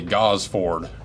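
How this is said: It is said with an American pronunciation. "in America we'd say Gosford"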